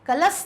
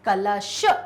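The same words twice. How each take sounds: First: The final consonant is a plain 's' sound. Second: The final consonant is an 'sh' sound. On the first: The speaker calls it wrong. "कलश नहीं" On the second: The speaker calls it right. "श शलगम वाला श"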